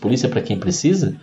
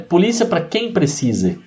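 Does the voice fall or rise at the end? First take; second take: falls; rises. First: The voice falls at the end like a statement. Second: The voice rises at the end like a question. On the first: Police are offered to those who need them. "é uma frase positiva" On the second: It asks who is the one who needs police. "soa como uma pergunta"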